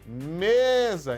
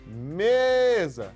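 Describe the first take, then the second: First: The stress falls on the first syllable. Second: The stress falls on the first syllable.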